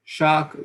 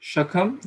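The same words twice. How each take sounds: First: Shak with the A held long and stressed. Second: Shakham with the A short and unstressed; the wrong way, vowel clipped short; wrong stress. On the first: Teacher shows students the right emphasis on Shak. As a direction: lean on the vowel in Shak. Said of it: "how we are emphasizing here". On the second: Teacher shows students the mistake, wrong short vowel. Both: Shown as a demonstration.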